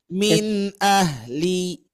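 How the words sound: The sound flows lightly between the words. The speaker calls it right. "tidak benar-benar ditahan, tidak benar-benar dialirkan juga"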